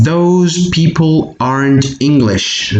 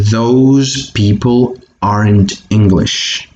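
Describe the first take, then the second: First: Model reading. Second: Said in the usual way. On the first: Shown as a demonstration. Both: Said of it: "is pronounced those".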